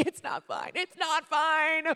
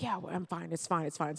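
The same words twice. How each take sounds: First: Imitated sobbing wail, squealing up high; crack, then wail it slowly, hammed-up; tearful breakdown. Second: Acting tough. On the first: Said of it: "Someone gives you a hug". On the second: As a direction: brush it off as if unbothered. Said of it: "trying to act so tough".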